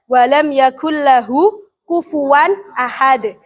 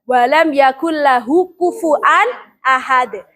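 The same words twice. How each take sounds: First: Kufuwan is said with a w sound. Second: Kufuwan is said with a glottal stop. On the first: This is one transmitted reading of the verse. "Ini bacaannya hafaz. Pakai waw, kufuwan" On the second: This is another transmitted reading of the verse. "Kalau syu'bah pakai hamzah"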